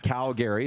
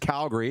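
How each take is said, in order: First: Calgary is said the way outsiders pronounce it. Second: Calgary is said the way locals pronounce it. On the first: The speaker calls it wrong. "not Calgary" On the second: The speaker calls it right. "It's Calgary"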